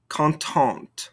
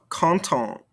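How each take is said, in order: First: "Contente" falling onto an audible final T; sounded ending consonants. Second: "Content" left open on the nasal vowel; silent ending consonants. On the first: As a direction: release the last T of "Contente". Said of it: "makes us pronounce those ending consonants". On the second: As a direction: leave the last T of "Content" silent. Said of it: "these ending consonants". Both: Shown as a demonstration.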